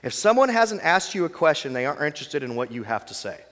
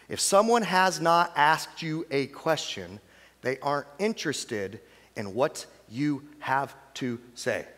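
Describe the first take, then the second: First: It is said at normal speed. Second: It is said more slowly.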